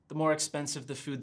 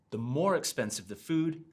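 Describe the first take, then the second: First: The word 'more' is said flat, without stress. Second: The word 'more' is stressed, then pitch falls. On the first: The speaker calls it wrong. "instead of saying" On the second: The speaker calls it right. "notice how I stress the word and then my intonation falls"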